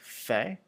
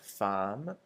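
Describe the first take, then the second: First: It sounds like 'fay', with no m sound. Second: It sounds like 'fam', ending in an m. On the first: The speaker calls it right. "like fait" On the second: The speaker calls it wrong. "not like femme"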